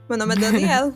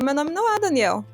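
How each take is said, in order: First: The name has a European Portuguese style L. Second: The name has a Brazilian Portuguese pronunciation. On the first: This is how he wants to be called. The speaker calls it right. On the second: This is how others called him. The speaker calls it wrong.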